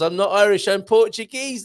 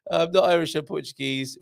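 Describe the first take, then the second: First: High, loud retold protest; mock giggly exclamation. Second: Said in the usual way. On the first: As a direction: imitate her amused correction, pitched up high. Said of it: "she giggles".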